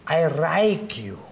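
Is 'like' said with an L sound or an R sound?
R sound. The word like starts with an R sound.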